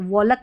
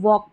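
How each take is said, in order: First: The word is said with an l sound. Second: The word is said with no l sound. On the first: The speaker calls it wrong. "वॉलक नहीं पढ़ते हैं" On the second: The speaker calls it right. "वॉक पढ़ते हैं"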